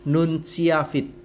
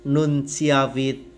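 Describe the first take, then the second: The two takes are said the same way.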